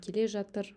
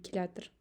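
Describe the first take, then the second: First: Both words are pronounced fully and separately. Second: The words are merged into one contracted word. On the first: This is the written form. "мы пишем келе жатыр" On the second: This is how people actually say it. "мы говорим келятыр"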